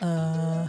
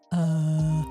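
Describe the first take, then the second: First: The voice sounds lighter with less bass. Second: The voice sounds boosted and heavy in bass.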